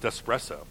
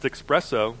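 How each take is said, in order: First: Espresso with a plain S, "ess-presso"; corrected pronunciation. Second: Espresso with a K sound, "ex-presso"; wrong pronunciation. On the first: Pedant corrects someone, espresso said with an S. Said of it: "It's pronounced espresso". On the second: Pedant quotes the mistake he corrects, espresso said "expresso". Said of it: "you're correcting your pronunciation of stuff". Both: Shown as a demonstration.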